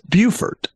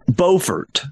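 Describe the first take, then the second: First: It is said the speaker's local way. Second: It is said the North Carolina way. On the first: "We have the exact same spelling and it's pronounced Beaufort" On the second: "North Carolina has a city pronounced Beaufort"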